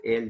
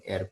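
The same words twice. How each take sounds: First: Said in the usual way. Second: "er" said with a tapped r instead of l; l turned to r. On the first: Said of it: "en vez de decir el". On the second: Shown as a demonstration. Teacher showing the class the l-to-r swap in "er". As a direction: end the word "er" on an r. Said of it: "dicen er".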